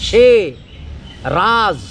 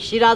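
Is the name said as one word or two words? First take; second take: two words; one word. First: It is said as two separate words. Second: It is said as one joined word. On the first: The speaker calls it right. "সে উচ্চারণ হবে ঠিক" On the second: The speaker calls it wrong. "সিরাজ হবে না"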